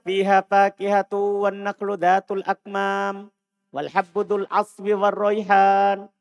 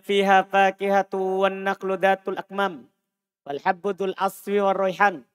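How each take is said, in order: First: The long vowel is held at full length. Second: A long vowel is cut short. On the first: The speaker calls it right. "Seharusnya kan antum baca" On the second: The speaker calls it wrong. "Antum kurangi satu huruf dari ayat firman Allah. Salah"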